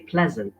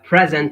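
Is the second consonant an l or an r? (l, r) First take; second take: l; r. First: The second consonant is an l sound. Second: The second consonant is an r sound. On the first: The speaker calls it wrong. "they say pleasant" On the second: The speaker calls it right. "instead of saying uh, present"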